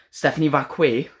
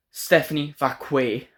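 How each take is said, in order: First: Stephanie Vacquet? repeated in disbelief, rising; a mildly scoffing repeat of Stephanie Vacquet; incredulous echo. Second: Slow, careful mock reading of Stephanie Vacquet, as if off a card; imitating a host who reads Stephanie Vacquet off paper; stilted name reading. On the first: Real, not acted. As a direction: echo Stephanie Vacquet like you can't believe it. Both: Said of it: "did you just read her name off a piece of paper?".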